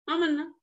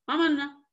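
No difference in how they are said.

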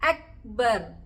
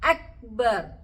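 No difference in how they are said.

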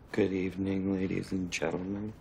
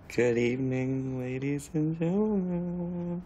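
First: It is said plainly, without a smile. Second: It is said warmly, with a smile.

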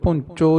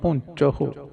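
First: The word ends in a plain o sound. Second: The word ends in an h and u sound. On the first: The speaker calls it wrong. "ਪੁੰਚੋ ਨਹੀਂ ਕਹਿਣਾ" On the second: The speaker calls it right. "ਹਾਹੇ ਦੇ ਔਂਕੜ"

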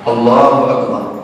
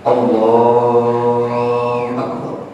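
First: The phrase is said short and quick. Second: The phrase is drawn out long.

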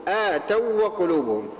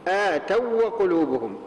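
The two takes are said the same way.

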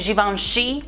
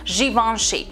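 First: The stress is on the last syllable. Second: The stress is not on the last syllable. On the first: The speaker calls it wrong. "nu e Givenchy pe ultima silabă" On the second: The speaker calls it right. "but it's Givenchy"

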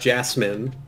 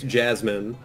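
First: The middle consonant is a hissing s sound. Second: The middle consonant is a buzzing z sound. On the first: The speaker calls it wrong. "the second way sounds weird and wrong" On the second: The speaker calls it right. "it's Jasmine"

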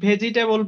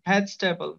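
First: The word begins with 'veji', with an extra vowel. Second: The word begins with 'vej', with no extra vowel. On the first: The speaker calls it wrong. "আমরা যে এটাকে ভেজিটেবল বলি অনেকেই" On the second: The speaker calls it right. "ভেজি হবে না, এটা ভেজ।"

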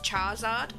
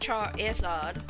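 First: The middle 'i' sound is left out. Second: The middle 'i' sound is clearly pronounced. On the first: The speaker calls it wrong. "I didn't actually know there was an I in it" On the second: The speaker calls it right. "I noticed the the I"

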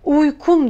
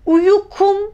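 First: No vowel is pronounced between y and k. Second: A vowel is pronounced between y and k. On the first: The speaker calls it right. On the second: The speaker calls it wrong.

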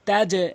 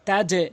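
Both takes have the same delivery.

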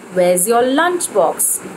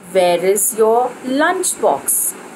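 First: The word is is contracted onto where. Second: The word is is said in full. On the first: The speaker calls it right. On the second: The speaker calls it wrong.

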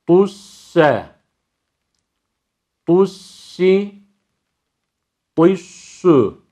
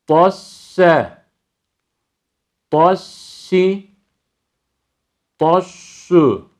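The two takes are said the same way.

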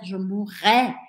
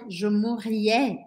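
First: No extra 'ee' sound comes before the ending. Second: An extra 'ee' sound comes before the ending. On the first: The speaker calls it right. "mais je vais dire" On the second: The speaker calls it wrong. "je ne vais pas dire"

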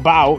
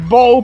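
First: The vowel differs from the 'bow' in 'bowtie'. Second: The vowel matches the 'bow' in 'bowtie'. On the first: The speaker calls it wrong. "me refería a Bow todo el tiempo como Bow" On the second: The speaker calls it right. "es Bow porque es de... Bowtie"

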